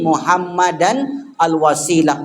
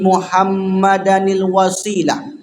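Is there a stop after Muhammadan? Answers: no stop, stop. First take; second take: stop; no stop. First: There is a stop after Muhammadan. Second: Muhammadan runs straight into the next word. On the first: "kalau kita berhenti" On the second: "karena ada hamzah wasol"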